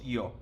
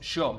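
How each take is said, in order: First: The word is said with a neutral Spanish accent. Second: The word is said with an Argentine accent. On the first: This is not how it is said in Argentina. "no decimos yo" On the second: This is how it is said in Argentina. "En Argentina decimos yo"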